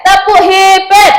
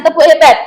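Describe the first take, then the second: First: Higher, slow, loud classroom chant call; cheer call. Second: Said in the usual way. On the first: Shown as a demonstration. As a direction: lead the class into a clapping cheer. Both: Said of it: "kita kasih tepuk hebat".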